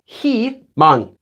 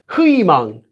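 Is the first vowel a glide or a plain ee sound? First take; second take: plain; glide. First: The first vowel is a plain ee sound. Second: The first vowel is a gliding ui sound. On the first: "notice it's pronounced 희망" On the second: "even though it's written as 희망"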